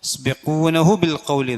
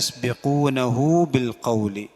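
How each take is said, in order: First: The vowel after 'nah' is short. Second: The vowel after 'nah' is lengthened. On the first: The speaker calls it wrong. "എന്നില്ല" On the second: The speaker calls it right. "കുറച്ചൊന്ന് അവിടെ വാവ് ഇട്ടിട്ടുണ്ടാവും ഹാക്ക് ശേഷം"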